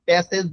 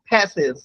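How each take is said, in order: First: The first sound has no puff of air. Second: The first sound has a strong puff of air. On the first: The speaker calls it wrong. "প্যাসেজ বলিনি কিন্তু" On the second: The speaker calls it right. "খ sound"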